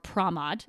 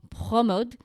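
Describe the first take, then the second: First: The name is said with an American accent. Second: The name is said with a French accent.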